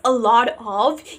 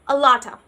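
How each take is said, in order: First: The words are said fully and separately. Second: The words are blended into one reduced form. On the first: "instead of saying this whole phrase" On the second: "you are combining these words together"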